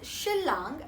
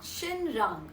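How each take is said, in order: First: The N is pronounced as an L sound. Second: The N is pronounced as an N sound. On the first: The speaker calls it right. "pronounced as Shillang" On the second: The speaker calls it wrong. "and not Shinrang"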